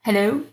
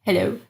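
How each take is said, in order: Both takes have the same delivery.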